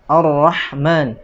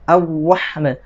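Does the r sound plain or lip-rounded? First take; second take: plain; lip-rounded. First: The r is thick, with no lip rounding. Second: The r is thick, with the lips pushed out. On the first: The speaker calls it right. "dibaca tafkhim ya atau tebal" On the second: The speaker calls it wrong. "tidak perlu di apa namanya moncongkan bibirnya uh, sampai"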